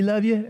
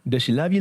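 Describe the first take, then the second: First: "love you" pushed much higher; stress on love you. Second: Said in the usual way. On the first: Retold or imitated. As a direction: lift "love you" way up in Cajun. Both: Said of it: "you had to do the accent".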